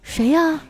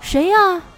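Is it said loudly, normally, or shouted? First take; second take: normally; loudly. First: It is asked at a normal volume. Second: It is asked in a raised, louder voice.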